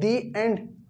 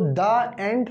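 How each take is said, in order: First: The word 'the' is said with a long 'ee' vowel. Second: The word 'the' is said with a short 'uh' vowel. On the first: The speaker calls it right. "दी एंड आपका correct sentence होगा" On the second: The speaker calls it wrong. "द end कहना technically गलत है"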